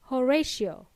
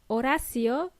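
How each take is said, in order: First: The name is said with English sounds. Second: The name is said with Spanish sounds. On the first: "in English, they would pronounce it as Horatio" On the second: "If your name is Horacio"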